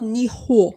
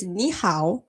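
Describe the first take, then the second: First: "ni hao" with "hao" said flat like "haw", falling; the mistaken "ni hao", ending on a dull falling "haw"; wrong tones. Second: "ni hao" with "ni" rising and "hao" like "how"; the right "ni hao", lifting on "ni"; correct Mandarin tones. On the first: Correcting a viewer, demonstrates the wrong falling "ni hao". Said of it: "it's not ni hao". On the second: Teaching a viewer, models the correct rising "ni hao". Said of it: "it's ni hao". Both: Shown as a demonstration.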